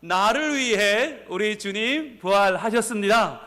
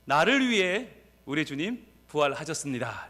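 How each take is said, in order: First: Slow, raised-voice proclamation; big voice. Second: Said in the usual way. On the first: Real, not acted. Pastor has congregation repeat it audibly, calling out big. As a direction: call it out so everyone hears, stretching each phrase. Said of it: "큰 목소리로 다시 한번". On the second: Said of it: "이렇게 외칩니다".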